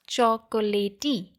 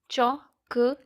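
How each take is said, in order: First: An extra vowel sound follows the final t. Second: It ends with the t, with no final vowel. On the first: The speaker calls it wrong. "We don't pronounce it as chocolatey" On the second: The speaker calls it right. "there are three syllables"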